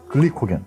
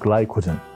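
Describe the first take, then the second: First: The word is said in a plain way. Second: The word is said in a fancy, English-like way.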